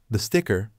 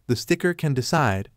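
First: Said in the usual way. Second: Excited exclamation. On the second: A narrator's reading. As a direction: exclaim the idea with sudden excitement. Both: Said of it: "France exclaimed".

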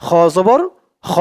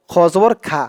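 First: খ with a full, rounded "khaw" vowel; correct খ. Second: খা with an open "aa" vowel instead of rounded "aw"; mispronounced খা. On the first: Teacher showing learners how it must be said, correct rounded খ. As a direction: end খ জবর খ on rounded "khaw", not "khaa". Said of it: "বলতে হবে". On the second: Teacher showing learners what many people say, mispronounced open-vowel খা. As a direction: end খ জবর খা on a wide "khaa". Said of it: "খা উচ্চারণটা সঠিক নয়". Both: Shown as a demonstration.

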